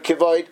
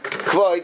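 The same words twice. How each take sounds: First: A short vowel follows the first consonant. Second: The first consonant has no vowel after it. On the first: The speaker calls it right. "but rather Kivoid, with a bit of an S sound" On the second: The speaker calls it wrong. "is not supposed to be pronounced Kivoid"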